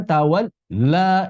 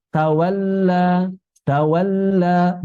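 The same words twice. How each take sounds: First: 'tawalla' broken between 'tawal' and 'la'; wrong mixed lam. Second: 'Tawalla' slow, with a connected double l; correct lam. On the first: Teacher shows an unclear mixture, wrong lam. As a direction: break 'tawalla' after a held l. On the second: Teacher models it for students, correct lam. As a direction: link 'tawal' to 'la' without a gap. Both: Shown as a demonstration. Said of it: "bukan tawalla".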